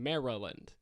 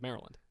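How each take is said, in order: First: The word is said with three syllables. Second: The word is said with two syllables. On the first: The speaker calls it wrong. "you're adding that many syllables though" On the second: The speaker calls it right. "It's two syllables"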